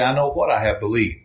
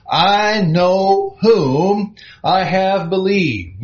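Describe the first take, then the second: First: "what" hit with a falling tune, a touch lower and softer; "what" set apart with a falling stress. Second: "whom" drawn out slow and high, every word weighted; "I know whom" said slowly with "whom" lifted and held; stress on whom. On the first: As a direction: press on "what" to contrast it. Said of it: "He didn't say". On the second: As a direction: lean hard on "whom", slowly. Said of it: "Now, let that sink in for just a second". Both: Shown as a demonstration.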